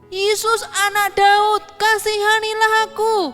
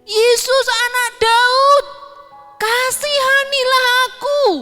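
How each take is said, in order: First: It is shouted at normal loudness. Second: It is shouted even louder.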